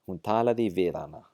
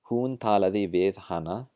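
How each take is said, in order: First: The h at the start of hana is dropped. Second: The h at the start of hana is pronounced.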